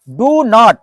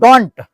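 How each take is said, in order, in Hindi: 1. ये दोनों शब्द अलग-अलग शब्दों की तरह बोले जाते हैं। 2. ये दोनों शब्द एक ही अक्षर में जुड़ जाते हैं।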